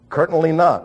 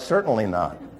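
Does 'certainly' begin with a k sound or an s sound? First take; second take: k sound; s sound. First: The first word begins with a k sound. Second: The first word begins with an s sound. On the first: The speaker calls it wrong. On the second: The speaker calls it right.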